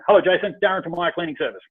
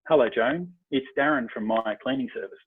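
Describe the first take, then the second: First: The voice is brisk and abrupt. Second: The voice is dropped low and gentle.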